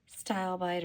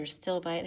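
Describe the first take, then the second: First: Stilbite with first syllable like "style"; long i in the first syllable of stilbite; first pronunciation variant. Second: Stilbite with first syllable like "still"; short i in the first syllable of stilbite; alternative pronunciation. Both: Shown as a demonstration. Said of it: "however you wanna pronounce that".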